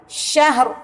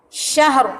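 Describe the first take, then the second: No difference in how they are said.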